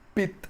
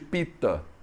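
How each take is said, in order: First: The word ends on a consonant, no final vowel. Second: The word ends with a short final vowel. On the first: "é muito normal você falar pit" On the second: "em vez de pita"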